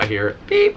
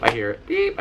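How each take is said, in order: First: Said in the usual way. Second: High beep imitation. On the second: In the hearing booth, mimicking the test tone as a high beep. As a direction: beep squeaked much higher, like the test tone.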